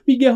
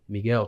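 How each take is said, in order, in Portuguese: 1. É gritada de forma frenética, em pânico. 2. É dita de forma calma e tranquila. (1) "você tá vibrando" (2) "Paz, plenitude"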